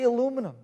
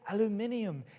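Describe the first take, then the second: First: It is said the American way. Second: It is said the British way. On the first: "we say aluminum" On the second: "adding an extra I to the word aluminum and saying aluminium"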